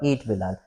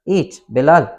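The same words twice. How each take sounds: First: The two words run together without a pause. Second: There is a short pause between the two words. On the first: Bilal is the one to be eaten. "कोई punctuation मैंने बीच में नहीं लगाया हुआ" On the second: Bilal is being told to eat. "एक छोटा सा comma लगा दें इनके बीच में"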